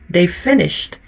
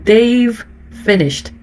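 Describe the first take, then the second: First: The v sound of they've is nearly silent. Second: The v sound of they've is clearly heard. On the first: "Muito suave, quase imperceptível" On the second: "Principalmente ele, ó"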